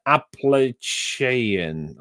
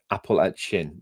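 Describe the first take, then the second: First: "Appalachian" drawn out slowly as "apple-AY-shee-un"; stretched, tentative "Appalachian" with a "sh" sound; unsure pronunciation. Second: "Appalachian" said as "apple-at-chin", with a hard "ch"; "Appalachian" landing on a short "at-chin"; corrected pronunciation. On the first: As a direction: sound out "Appalachian" slowly, with a long "ay" before "shun". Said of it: "Am I saying that?". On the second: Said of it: "There we go". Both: Shown as a demonstration.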